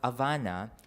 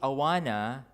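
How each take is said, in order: First: The word starts with an H and has a V sound. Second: The word starts with a vowel and has a W sound. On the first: The speaker calls it wrong. "instead of insisting on Havana" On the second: The speaker calls it right. "when I tried saying Awana"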